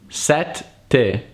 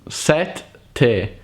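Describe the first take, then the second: No difference in how they are said.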